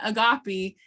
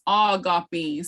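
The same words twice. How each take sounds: First: "agape" as uh-GAH-pee, first vowel reduced; short first syllable. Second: "agape" as AW-gah-pee, slow with long first vowel; drawn-out syllable. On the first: Teacher showing the wrong way, short English-style first syllable. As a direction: rush past the opening vowel of "agape". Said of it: "It's not agape". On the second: Teacher correcting the word for buffalo, syllables drawn out. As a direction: stretch the opening "aw" of "agape". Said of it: "you gotta really draw those". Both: Shown as a demonstration.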